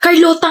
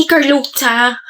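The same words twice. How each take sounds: First: Carlota said the Filipino way, clear o, plain t; proper pronunciation. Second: Carlota drawn out like Pablo says it, with a softened ta ending; mimicking his pronunciation. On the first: Shown as a demonstration. Girl correcting Pablo on her name, says Carlota properly. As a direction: say Carlota as she wants it, tapped r and crisp ending. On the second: Girl mocking how Pablo says her name, mimicking Carlota. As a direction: imitate his lazy Carlota, ending near cha. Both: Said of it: "ganyan mo binabanggit yung pangalan ko".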